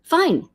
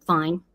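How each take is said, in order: First: High, falling "fine"; acted insistent "fine". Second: Low, short "fine"; acted curt "fine". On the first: Acting out a woman pressed on how she is, high insistent "fine". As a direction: pitch it up, insisting nothing is wrong. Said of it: "No, no, really, how are you?". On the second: Acting out a woman asked how she is, curtly low. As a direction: answer low, giving nothing away. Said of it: "and women knows this too".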